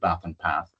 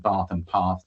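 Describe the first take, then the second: First: It is said in a Nottinghamshire accent. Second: It is said in a southern English accent.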